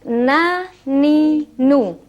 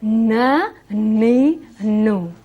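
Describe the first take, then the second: First: The syllables are said without nasal sound. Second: The syllables are said with a nasal sound. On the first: The speaker calls it right. "jadi na ni nu" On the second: The speaker calls it wrong. "Tidak boleh na ni nu. / Tidak boleh bau hidung"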